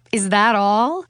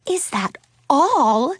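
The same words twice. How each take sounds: First: Said in the usual way. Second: Slow, high-pitched disbelief on ALL; aghast gasp. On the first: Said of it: "Katie's mother laughed". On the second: A narrator's reading. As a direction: repeat it in shock, stretching "all". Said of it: "Suzanne gasped".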